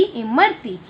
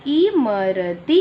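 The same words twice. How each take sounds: First: Said in the usual way. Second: Teacher stretches इमरती for the class; slow model. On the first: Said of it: "normal take". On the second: Shown as a demonstration. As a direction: say इमरती very slowly, rising. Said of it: "slow model".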